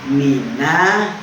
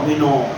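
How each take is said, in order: First: The final vowel is an open a sound. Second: The final vowel sounds like an o. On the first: The speaker calls it right. "Jadi mina minallah" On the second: The speaker calls it wrong. "bukan minallah mino mino"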